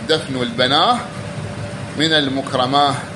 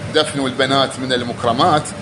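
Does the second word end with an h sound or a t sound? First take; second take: h sound; t sound. First: The second word ends with an h sound. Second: The second word ends with a t sound. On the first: "قرأوها هكذا ... بالهاء" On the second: "يعني دفنوا البنات"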